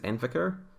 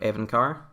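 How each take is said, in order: First: The name is said like 'en-vi-car'. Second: The name is said like 'e-ven-car'. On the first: The speaker calls it wrong. "I keep reading it as Envicar" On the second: The speaker calls it right. "instead of Evencar"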